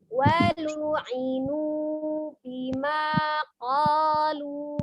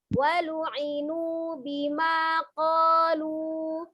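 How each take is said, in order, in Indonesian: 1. Frasa ini dibaca lambat. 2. Frasa ini dibaca cepat. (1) "kalau lambatnya kita lambatnya kan" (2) "Mau dicepetin ya monggo"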